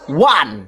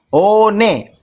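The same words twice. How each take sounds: First: It is said as one syllable, wan. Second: It is said as two syllables, o-ne. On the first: It is the English reading of the letters. "Dibaca dengan bahasa Inggris" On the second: It is the Indonesian reading of the letters. "One dibaca dengan bahasa Indonesia"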